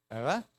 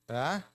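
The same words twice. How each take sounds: No difference in how they are said.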